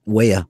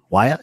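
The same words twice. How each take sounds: First: "Waya" said as WAY-uh, first syllable like "way"; "Waya" rhyming with "player" without the R; pronounced WAY-uh. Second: "Waya" said as WHY-uh, rising in question; questioning "Waya" as WHY-uh, higher at the end; pronounced WHY-uh. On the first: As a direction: say "Waya" with a long A, WAY-uh. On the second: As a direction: say "Waya" with first syllable like "why". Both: Shown as a demonstration. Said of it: "Is it Waya or Waya?".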